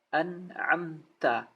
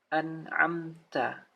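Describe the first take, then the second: Both takes have the same delivery.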